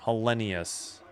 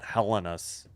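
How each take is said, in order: First: An 'ee' sound comes before the ending. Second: There is no 'ee' sound before the ending. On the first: The speaker calls it right. "There's the E E E in there" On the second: The speaker calls it wrong. "It's not Hellenus"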